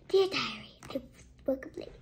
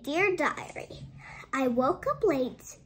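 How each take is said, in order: First: It is read in a put-on dog voice. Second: It is read in a plain narrating voice.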